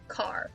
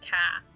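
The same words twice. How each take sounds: First: The word ends with an audible R sound. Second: The word ends in a long vowel without R. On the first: This is the American way. "as opposed to" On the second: This is the British or Australian way. "it's just a long A"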